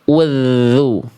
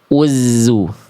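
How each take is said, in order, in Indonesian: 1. Huruf tengah itu 'th' seperti di 'this'. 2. Huruf tengah itu bunyi 'z' yang bergetar. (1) "suaranya dialirkan" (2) "Salah. Tertukar ya"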